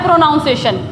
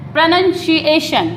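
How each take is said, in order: First: "प्रोनाउंसिएशन" as pro-noun-SAY-shun; "प्रोनाउंसिएशन" the common wrong way, pro-nown-seshun; common mispronunciation. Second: "प्रोनाउंसिएशन" as pruh-nun-shee-AY-shun, slow; "प्रोनाउंसिएशन" in careful slow syllables, falling; correct pronunciation. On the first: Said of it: "common में क्या बोला जाता है?". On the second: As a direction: model "प्रोनाउंसिएशन" slowly, nun not noun. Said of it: "वो बोला जाता है". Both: Shown as a demonstration.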